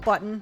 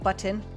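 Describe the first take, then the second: First: The T sound is dropped. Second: The T sound is clearly pronounced. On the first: "rarely pronounces T's" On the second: "not button"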